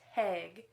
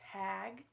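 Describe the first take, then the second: First: The vowel has a regional Wisconsin sound. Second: The vowel is a standard, non-regional sound. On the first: The speaker calls it wrong. "not tag, because don't forget, we're from Wisconsin and that's how we say it" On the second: The speaker calls it right. "I had to try really hard to say tag"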